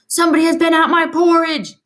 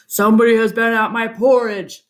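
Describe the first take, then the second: First: It is said in a medium, middle-pitched voice. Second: It is said in a deep, rough, gruff voice.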